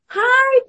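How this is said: The greeting sounds bright and cheerful.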